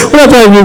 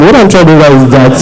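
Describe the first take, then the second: First: Laughing and crying at once, a bit faster; laughing through tears. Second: Said in the usual way. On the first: Real, not acted. Embarrassed photographer pressing on with her question, laughing through tears. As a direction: push the words out through a tearful laugh. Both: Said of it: "I'm just being emotional".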